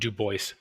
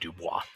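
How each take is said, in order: First: The name is said with an English pronunciation. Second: The name is said with a French pronunciation. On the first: This is how the man himself said his name. "he pronounced it Du Bois" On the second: This is how the name would be read in French. "in French pronunciation, it would be Dubois"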